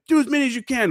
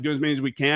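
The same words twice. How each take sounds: First: High barked order; drill instructor order. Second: Said in the usual way. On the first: Retold or imitated. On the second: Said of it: "me and this other dude are like".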